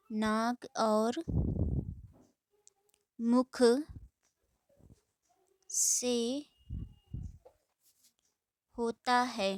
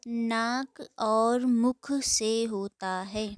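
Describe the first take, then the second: First: Slow dictation. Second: Dictation pace. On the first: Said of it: "dictating word by word". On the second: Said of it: "dictating definition slowly". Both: Shown as a demonstration.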